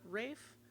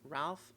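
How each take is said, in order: First: The name is said without an L sound. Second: The name is said with an L sound. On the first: The speaker calls it right. "and not Rafe" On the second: The speaker calls it wrong. "I have increasingly heard people just call him Ralph Fiennes"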